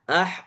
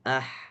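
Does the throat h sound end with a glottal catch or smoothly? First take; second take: glottal catch; smoothly. First: The h is forced and cut off by a glottal catch. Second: The breathy h flows out smoothly from the throat. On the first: The speaker calls it wrong. "Tapi kalau terlalu berlebihan" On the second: The speaker calls it right. "Idealnya seperti itu"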